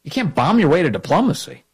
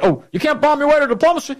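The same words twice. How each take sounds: First: Incredulous repeat. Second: High, sing-song mock quote; mocking Obama. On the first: Real, not acted. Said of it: "What are you talking about?". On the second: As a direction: parody him in a higher, singing tone. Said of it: "he's saying things like".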